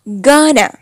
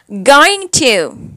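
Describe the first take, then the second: First: It is blended into one reduced word. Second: It is said as two full separate words.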